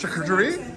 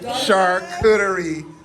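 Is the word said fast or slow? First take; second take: fast; slow. First: The word is said at a faster pace. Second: The word is said at a slower pace. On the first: The speaker calls it right. "A little faster, right?" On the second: The speaker calls it wrong. "I'm always saying charcuterie board"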